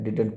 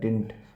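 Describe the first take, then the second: First: The word has two syllables, with the d sound. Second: The word is reduced to one syllable, dint. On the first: "डिडंट पढ़ा जाता है" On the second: "spoken में डिंट भी बोला जाता है"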